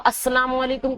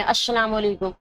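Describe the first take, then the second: First: Said in the usual way. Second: السلام with an sh sound in place of s; seen as sheen. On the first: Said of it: "سین لکھا ہے". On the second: Shown as a demonstration. Teacher showing a bad greeting, السلام said with sh for s. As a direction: mispronounce السلام as "ash-shalam". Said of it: "آپ اس کو شین پڑھ رہے ہیں".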